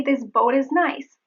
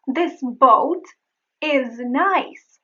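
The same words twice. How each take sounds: First: "This boat is nice" run together, T tapped; linked flap T. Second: "This boat is nice" with a crisp T and pauses; separated words. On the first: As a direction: link "boat is" with a quick flap. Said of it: "I may say". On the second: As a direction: keep "boat" and "is" unlinked. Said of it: "when I say". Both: Shown as a demonstration.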